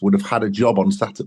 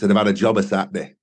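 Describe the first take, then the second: First: The word before Saturday is a full 'on'. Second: The word before Saturday is reduced to 'a'. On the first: "in sort of standard English" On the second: "in the Sheffield kind of parlance"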